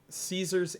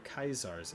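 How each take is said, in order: First: The name has the usual English pronunciation. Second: The name has the Latin pronunciation.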